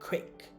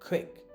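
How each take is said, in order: The two takes are said the same way.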